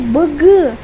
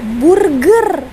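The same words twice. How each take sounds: First: Malaysian accent, with the r only faintly heard. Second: Indonesian accent, with the r clearly heard. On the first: "Macam sini burger" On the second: "di sana burger"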